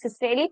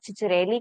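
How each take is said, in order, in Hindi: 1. यह नाम s की आवाज़ से शुरू होता है। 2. यह नाम ch की आवाज़ से शुरू होता है। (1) "कुछ सिसरेली बोलते हैं" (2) "कुछ चिचरेली बोलते हैं"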